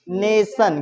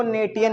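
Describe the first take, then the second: First: नेशन said as NAY-sun, the "tion" as one syllable; correct pronunciation. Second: नेटियन read as nay-tee-yun, with a hard "t"; spelling-based mispronunciation. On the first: (नेशन के अंत में "सन" की आवाज़) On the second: (नेटियन में "टी" की साफ़ आवाज़) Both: Shown as a demonstration. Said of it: "इसको नेटियन नहीं पढ़ेंगे".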